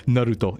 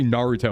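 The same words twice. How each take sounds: First: "Naruto" with a tapped Japanese r; correct Japanese pronunciation. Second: "Naruto" with English vowels and stress, no Japanese accent; Americanized pronunciation. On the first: Streamer showing what they avoid saying, Japanese-accented "Naruto". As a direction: say "Naruto" as a Japanese speaker would. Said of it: "use correct Japanese pronunciation". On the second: Streamer showing the everyday way to say it, Americanized "Naruto". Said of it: "drop into a different accent". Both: Shown as a demonstration.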